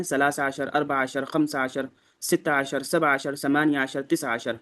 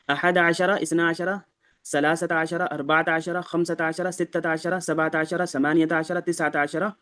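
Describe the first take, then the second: First: عشر cut short, with no final vowel; ثلاثة read as "salasa"; demo with sukoon. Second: عشرة ending on an open "-ra"; ثلاثة read as "salasata"; demo with zabar. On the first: Teacher shows the quicker sukoon reading. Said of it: "سکون والا بھی اختیار کر سکتے ہیں". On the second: Teacher demonstrates the zabar endings. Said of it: "اس میں ہم زبر کے ساتھ پڑھیں گے". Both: Shown as a demonstration.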